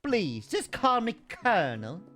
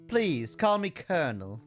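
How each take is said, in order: First: It is said with a southern Kentucky drawl. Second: It is said without a southern drawl.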